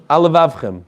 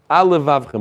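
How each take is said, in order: First: The two words run together with one L sound. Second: The two words run together with one L sound.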